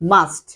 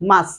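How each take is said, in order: First: The final t sound is pronounced. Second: The final t sound is dropped. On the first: This is how we usually say it. "But আমরা বলি মাস্ট" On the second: This is how Americans say it. "American accent হচ্ছে মাস"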